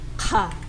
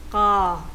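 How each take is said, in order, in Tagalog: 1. Ang k ay may malakas na buga ng hangin. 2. Ang k ay tense at hindi aspirated. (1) "sa pangalawa naman, yung nasa gitna" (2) "sa double, yung lesson natin ngayon"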